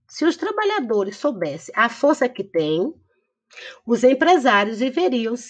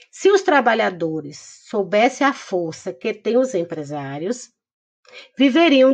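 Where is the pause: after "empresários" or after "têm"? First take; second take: after têm; after empresários. First: The pause comes after the word "têm". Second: The pause comes after the word "empresários". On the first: The business owners end up on their knees. "No segundo exemplo, quem tem a força são os trabalhadores" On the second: The workers end up on their knees. "no primeiro exemplo, quem fica de joelho, né, são os trabalhadores"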